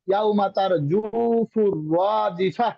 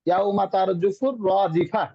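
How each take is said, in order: First: The vowel in 'ju' is drawn out long. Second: The vowel in 'ju' is kept short.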